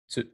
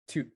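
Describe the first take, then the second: First: The syllable begins with a ts sound. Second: The syllable begins with a plain t sound. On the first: This is the modern form of the sound. "that transformed into tsu" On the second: This is the older form of the sound. "in old Japanese, they used to have a sound to"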